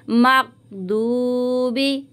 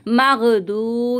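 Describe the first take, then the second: First: Very slow मगदूबी with the voice stopped on gain; correct way. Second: मगदू with the voice not stopped on gain; the faulty मगदू many sisters say; wrong way. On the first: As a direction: hold the voice on the g of मगदूबी. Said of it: "हमें आवाज़ को रोकना है गैन पर". (सही तरीका: गैन पर आवाज़ रोककर मगदूबी) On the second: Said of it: "तो ये गलत तरीका है". (ग़लत तरीका: मगदू) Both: Shown as a demonstration.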